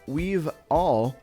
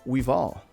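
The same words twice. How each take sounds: First: The two words are said separately and clearly. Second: The two words run together into one.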